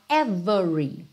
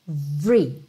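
First: The middle vowel is pronounced, three syllables. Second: The middle vowel is dropped, two syllables. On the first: It stresses each single piece. "essa intenção de reforçar, de enfatizar esse every" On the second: A neutral, ordinary use of the word. "esse é do meio do every não é pronunciado"

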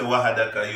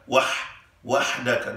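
First: The middle h sound is a plain h. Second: The middle h sound is throaty and breathy. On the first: The speaker calls it wrong. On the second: The speaker calls it right.

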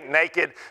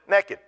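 First: The word has a standard non-Southern pronunciation. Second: The word has a Southern US pronunciation. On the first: "for the sake of where I live now, I say naked so you can understand" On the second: "from being from down south, ... there's a way we pronounce the word naked"

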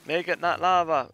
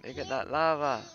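First: It is shouted loudly. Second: It is said at a normal volume.

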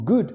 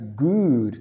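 First: The vowel is short and clipped. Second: The vowel is long and drawn out. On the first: The speaker calls it right. "esto suena más como good" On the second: The speaker calls it wrong. "no es good, como food"

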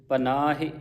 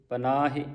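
Both takes have the same delivery.

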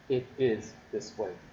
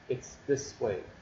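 First: The opening is the full form it is. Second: The opening is the contracted form it's. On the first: "So it is this way" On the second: "an abbreviation for it is"

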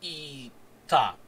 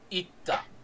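First: The i vowel is held for two beats. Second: The i vowel is cut short by a stop. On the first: The speaker calls it wrong. "is not ita. Rather than holding the E for a second beat" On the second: The speaker calls it right. "you glottal stop on the top"

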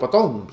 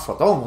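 First: The name begins with a P sound. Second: The name begins with an F sound. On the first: The speaker calls it wrong. "yo le digo Potón, sé que no se dice Potón" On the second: The speaker calls it right. "que se llama Fotón o algo de eso"

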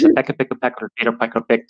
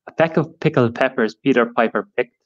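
First: It is said fast. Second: It is said slowly.

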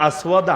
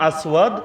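The two takes are said the same way.

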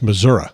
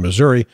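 First: The name ends with an 'uh' sound. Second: The name ends with an 'ee' sound. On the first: The speaker calls it right. "It's M-I-S-S-O-U-R-A" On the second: The speaker calls it wrong. "I pronounced that wrong"

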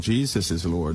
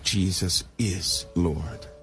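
First: It is said in a plain, flat way. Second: It is said in a deep, heartfelt way. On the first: The speaker is merely identifying who he is. "One is said by identification" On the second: The speaker personally believes it. "the other is said by belief"

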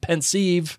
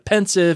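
First: The second syllable is a long 'seev'. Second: The second syllable is a short 'siv'. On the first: "It's a combination of two words. So is it a sieve?" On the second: "people calling it pensive"

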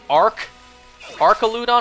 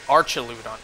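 First: The first syllable sounds like ark. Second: The first syllable sounds like arch.

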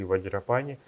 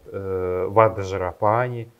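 First: The 'dzh' is said as one blended sound. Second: The 'dzh' is not said as one blended sound. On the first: The speaker calls it right. "мы будем их произносить либо через букву «Дже»" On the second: The speaker calls it wrong. "говорят «ваджрапани»... в санскрите таких слов нет"

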